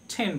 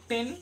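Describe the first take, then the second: First: The t is aspirated, with a puff of air. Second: The t is plain, without a puff of air. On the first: The speaker calls it right. "কিন্তু আমরা এটাকে ঠেন বলবো" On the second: The speaker calls it wrong. "ট এর সঙ্গে একার দিয়ে ন করলাম"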